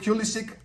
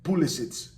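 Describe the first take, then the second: First: The name is said with an American pronunciation. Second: The name is said with a European pronunciation. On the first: "the guy wants to be called Pulisic" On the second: "over in Europe, he's Pulisic"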